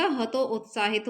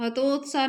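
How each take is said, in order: First: हतो उत्साहित split, "ha-to, ut-saa-hit"; correct HATO-UTSAHIT. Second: हतोत्साह merged, "ha-tot-saa"; wrong form HATOTSAH. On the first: Teacher correcting students, हतो उत्साहित in two parts. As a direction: separate हतो from उत्साहित, sound the final "hit". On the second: Teacher showing the wrong form, हतोत्साह short and merged. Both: Shown as a demonstration. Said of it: "हतोत्साह नहीं होता".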